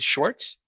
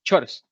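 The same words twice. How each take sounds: First: The word is said with an English accent. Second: The word is said with a Spanish accent. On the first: This is how English speakers say it. "the English word, which is shorts" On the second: This is how people in Colombia say it. "it's just the Spanish way to say"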